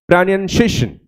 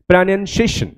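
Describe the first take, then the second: The two takes are said the same way.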